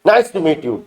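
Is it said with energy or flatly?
energy. It is said warmly with lots of energy.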